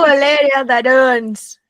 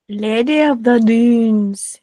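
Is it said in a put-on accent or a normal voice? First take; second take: accent; normal. First: It is said in a put-on Boston accent. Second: It is said in her normal voice.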